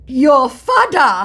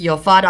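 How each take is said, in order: First: Slow, loud, high Nigerian pidgin drawl on "fada"; mock Nigerian pidgin. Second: Said in the usual way. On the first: Scammer taunting her in Nigerian pidgin, slow and loud. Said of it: "I don't speak pidgin". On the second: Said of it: "Your Nigerian is showing".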